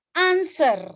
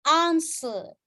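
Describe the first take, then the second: First: American accent. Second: "Answer" with a long British AH and no R; British accent. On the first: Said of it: "itu adalah, eh, American". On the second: Teacher giving the British version, long vowel. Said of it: "Answer itu British". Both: Shown as a demonstration.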